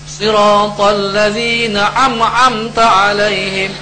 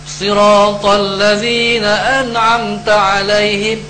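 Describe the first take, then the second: The two takes are said the same way.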